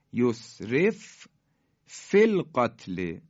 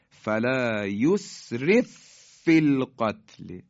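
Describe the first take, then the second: First: یسرف فی القتل chanted with the ف still split; unmerged recitation. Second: یسرف فی القتل chanted louder with one doubled ف; merged recitation. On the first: Teacher showing the letters before merging, slow chant. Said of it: "ف ساکنه". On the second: Teacher demonstrating the merge to students, slow louder chant. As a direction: join the two ف into one strong ف. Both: Shown as a demonstration.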